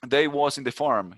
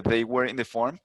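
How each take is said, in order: First: Slow Southern US drawl, mocking cowboy speech; a light imitation of a Southern US accent; mock Southern twang. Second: Said in the usual way. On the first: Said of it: "con ese tonito al final". (leve imitación de acento sureño de Estados Unidos) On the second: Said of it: "en vez de".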